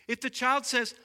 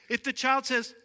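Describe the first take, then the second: Both takes have the same delivery.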